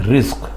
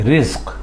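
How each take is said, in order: The two takes are said the same way.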